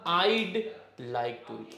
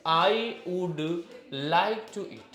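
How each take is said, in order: First: 'I would' is shortened to one syllable. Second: 'I would' is said as two full words. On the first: "हम बोलेंगे आइड like to eat. कितना short हो गया" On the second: "हमें बोलना है आई वुड like to eat"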